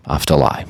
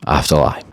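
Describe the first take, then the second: No difference in how they are said.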